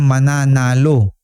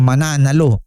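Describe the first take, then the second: First: The word is said slowly and softly. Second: The word is said forcefully and sharply. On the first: The person will win. "marahan, mahinay" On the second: The person will fight and make trouble. "Ibang meaning yan sa Tagalog pagka ganyan ng ah, pagbigkas"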